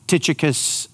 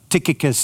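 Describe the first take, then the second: First: Tychicus with a "ch" sound, TITCH-ih-kus; soft-ch pronunciation. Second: Tychicus with a hard "k", TIK-ih-kus; hard-k pronunciation. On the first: Preacher offering pronunciations of a biblical name, Tychicus as TITCH-ih-kus. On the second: Preacher showing another suggested way, Tychicus as TIK-ih-kus. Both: Shown as a demonstration. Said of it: "There's all different, uh, ways people suggest, uh, for pronunciation".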